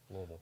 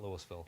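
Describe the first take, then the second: First: The name is slurred and mumbled together. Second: The name is said clearly, syllable by syllable. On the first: This is how locals say it. The speaker calls it right. "you have to say Louisville with a speech impediment to say it properly" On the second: This is how outsiders say it. The speaker calls it wrong. "not Louisville"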